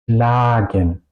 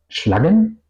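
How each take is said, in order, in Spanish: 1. La primera vocal es larga. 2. La primera vocal es corta. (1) "yo pronuncio schlagen. La A suena larga" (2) "Yo no pronuncio schlagen"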